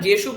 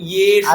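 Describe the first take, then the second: First: The word begins with a j sound. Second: The word begins with a y sound. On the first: The speaker calls it wrong. "যেসু বললে আপনার একদম অবস্থা খারাপ হয়ে যাবে" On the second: The speaker calls it right. "ইয়কারের পরে একার রয়েছে তো তো ওটা দীর্ঘ একটু টানতে হবে"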